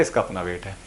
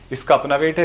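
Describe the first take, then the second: First: Much lower and softer, settling the point; quiet repeat. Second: Rising tune at the end on है; emphatic statement. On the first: Teacher quietly echoing the rule to students, low and soft. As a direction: drop low and soft on इसका for the echo. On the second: Teacher stressing to students, rising on है. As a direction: lift the voice up on है as if checking they follow. Teacher repeats key point twice. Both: Shown as a demonstration.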